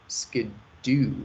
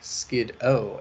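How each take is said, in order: First: The name ends in an 'oo' sound. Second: The name ends in an 'oh' sound. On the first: This is how the English dub says it. "more like skid-doo" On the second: This is not how the English dub says it. "less like skid-o"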